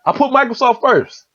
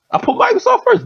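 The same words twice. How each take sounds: First: Said in the usual way. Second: I put Microsoft first jumped way higher; emphatic repeat. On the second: Real, not acted. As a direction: hammer the point home. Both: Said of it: "think about where I put Apple".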